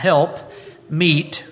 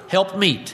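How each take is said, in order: First: There is a short pause between the two words. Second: The two words run together without a pause. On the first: The second word is separate and means appropriate. The speaker calls it right. "You'll notice I put a pause between the words help and meet" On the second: The two words form a single compound word. The speaker calls it wrong. "we generally run that as one word"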